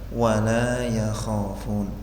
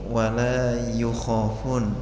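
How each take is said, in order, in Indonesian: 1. Vokal setelah y terdengar seperti a. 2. Vokal setelah y terdengar seperti u.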